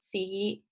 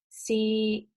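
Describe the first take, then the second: First: The syllable is said with the fifth tone. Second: The syllable is said with the third tone.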